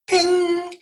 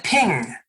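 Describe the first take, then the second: First: High, sustained ringing ping; imitated alert ping. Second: Said in the usual way. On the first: Guest imitating the alert that your box has arrived, high ringing ping. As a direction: sing out the word like a chime.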